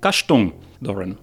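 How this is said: The name is said with a German pronunciation. "a German grandmother-in-law who would say"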